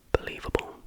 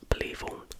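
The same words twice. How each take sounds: The two takes are said the same way.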